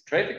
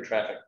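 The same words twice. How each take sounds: First: "Traefik" said as TRAY-fik; "Traefik" with first syllable rhyming with day; long-A pronunciation. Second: "Traffic" said as TRAF-ik; "Traffic" with first vowel as in cat; short-A pronunciation. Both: Shown as a demonstration. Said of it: "It's pronounced traffic".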